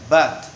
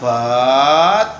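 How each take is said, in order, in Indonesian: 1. Vokalnya diucapkan pendek. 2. Vokalnya diucapkan panjang. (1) "karena itu harus pendek" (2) "nggak boleh dibaca but"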